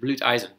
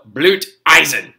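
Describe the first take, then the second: First: The words are said softly and pleasantly. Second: The words are said harshly and aggressively. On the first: "You can say German things really, really nice" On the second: "I don't know why I said that aggressively"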